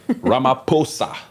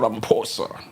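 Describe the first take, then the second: First: The name is said with a South African pronunciation. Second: The name is said with an American pronunciation. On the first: The speaker calls it right. "Very simple stuff" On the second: The speaker calls it wrong. "It's not Cyril Ramaphosa"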